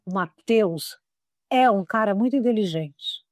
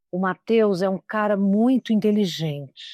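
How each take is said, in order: First: Weight on the verb "é", "inteligente" nearly dropped; verb-led phrasing; stress on é. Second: Muito inteligente pushed hard; overstressed adjective; stress on muito. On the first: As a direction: hit "é", let "muito inteligente" fade. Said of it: "Eu quase sumi com inteligente, mas é o que ele é". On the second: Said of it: "Olha a diferença se eu disser". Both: Shown as a demonstration.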